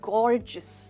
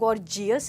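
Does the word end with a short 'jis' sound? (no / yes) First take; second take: yes; no. First: The ending is said as a short 'jis'. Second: The ending is not said as a short 'jis'. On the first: The speaker calls it right. "जो जी ई ओ यू है इसको आप बोलेंगे जिस" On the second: The speaker calls it wrong. "हम इसको गॉर्जियस नहीं बोलेंगे"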